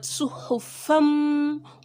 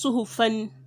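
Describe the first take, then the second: First: The word ends with an m sound. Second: The word ends with an n sound. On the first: The speaker calls it right. "but suhufam" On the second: The speaker calls it wrong. "It's not just suhufan"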